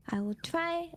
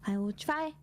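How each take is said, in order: Both takes have the same delivery.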